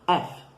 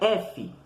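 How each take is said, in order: First: The letter name is said quickly. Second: The letter name is said slowly. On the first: This is the English letter name. "você vai falar um F meio que rápido" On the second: This is the Portuguese letter name. "O nosso é F"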